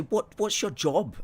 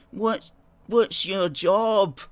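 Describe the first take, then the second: First: Raised-pitch questioning of critics; quoted challenge. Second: High, loud, drawn-out jeer; mocking critics. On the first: Retold or imitated. Critics asking the host about his job, raised-pitch challenge. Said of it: "people who don't like us". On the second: Critics who don't like the host question him, exaggerated mocking. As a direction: mimic the haters, stretching every word. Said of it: "people who don't like us, you know, they go".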